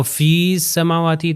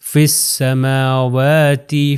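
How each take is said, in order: First: فی السماواتی with a long, separate fee before the s; wrong pronunciation. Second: فی السماواتی with a short fi joined to the s, drawn out slowly; correct recitation. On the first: Teacher shows students the mistake, sounding the ya. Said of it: "تو یہ غلط ہو جائے گا". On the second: Teacher shows students the right way, slow careful recitation. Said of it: "اگر میں کہوں فی السماواتی تو یہ غلط ہو جائے گا". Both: Shown as a demonstration.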